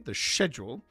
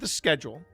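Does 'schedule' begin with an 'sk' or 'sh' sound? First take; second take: sh; sk. First: It is said the British way, with 'sh'. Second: It is said the American way, with 'sk'.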